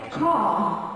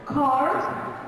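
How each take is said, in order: First: British "car" with a silent R; British accent. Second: American "car" with a sounded R; American accent. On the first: Teacher shows what the British say, British accent. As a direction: drop the R in "car", British style. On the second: Teacher contrasts American with British car, American accent. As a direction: curl the final R in "car", American style. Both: Shown as a demonstration. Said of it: "the British is gonna say car".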